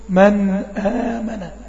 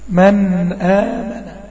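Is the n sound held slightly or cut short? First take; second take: held; held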